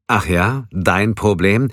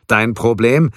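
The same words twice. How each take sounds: First: Incredulous rising question; ungläubig. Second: Angry. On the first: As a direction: throw his words back in disbelief. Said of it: "Unglauben und Wut". (ungläubig fragend) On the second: Keller repeats angrily, louder. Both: A narrator's reading.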